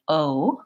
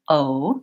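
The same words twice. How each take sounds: Both takes have the same delivery.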